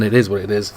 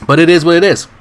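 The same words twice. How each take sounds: First: Said in the usual way. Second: Emphatic shrug. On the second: Real, not acted. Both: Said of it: "I've still got dry throat".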